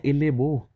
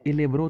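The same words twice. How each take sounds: First: "एले बो" said with a plain "बो", no r; the wrong way: "एले बो"; wrong pronunciation. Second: "एले ब्रो" with a clear "ब्रो" after the r; the right way: "एले ब्रो"; corrected "एले ब्रो" for elbow; correct pronunciation. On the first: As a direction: mistaken "एले बो" for elbow. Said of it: "एले बो नहीं बोलते इसको". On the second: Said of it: "अपने बो की तरह क्या पढ़ना है? ब्रो". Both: Shown as a demonstration.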